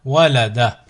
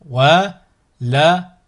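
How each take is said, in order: First: Syllables joined as one word. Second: Slow, each syllable drawn out separately; split into syllables. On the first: Teacher models a word for learners to repeat, joined in one go. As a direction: run the syllables together without pauses. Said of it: "ensuite le mot". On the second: Teacher models a word for learners to repeat, split into syllables. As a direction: cut the word up, pausing between syllables. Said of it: "décomposer le mot". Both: Shown as a demonstration.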